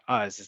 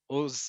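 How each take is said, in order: First: The vowel is an 'ah' sound. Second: The vowel is an 'oh' sound. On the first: The speaker calls it wrong. "not Az" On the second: The speaker calls it right. "Ozneha is pronounced Ozen, Oz"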